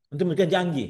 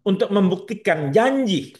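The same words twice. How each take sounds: First: Said in the usual way. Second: "untuk membuktikan janji" said slowly, each word weighted; key phrase "untuk membuktikan janji" stretched slow and stressed; slow emphasis. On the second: Shown as a demonstration. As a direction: drag out "untuk membuktikan janji" to drive it home.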